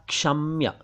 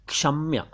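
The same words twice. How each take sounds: The two takes are said the same way.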